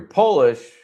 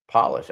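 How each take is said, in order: First: Polish said POH-lish, long O, like the country's people; Polish the nationality. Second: Polish said PAH-lish, short "ah" as in shoe polish; polish the shine. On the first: Explaining the spelling joke to viewers, says POH-lish. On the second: Contrasting the two words for viewers, says PAH-lish. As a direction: polish with a short "ah", the cleaning word. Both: Shown as a demonstration. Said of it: "spelled exactly the same but pronounced totally different".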